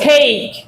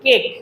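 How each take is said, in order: First: The vowel is a long a sound. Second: The vowel is a short, plain e sound. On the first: The speaker calls it right. "This is cake" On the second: The speaker calls it wrong. "আমরা বলি কি কেক?"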